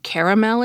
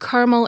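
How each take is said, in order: First: The word is said with three syllables. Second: The word is said with two syllables. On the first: The speaker calls it right. "is best" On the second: The speaker calls it wrong. "is worst"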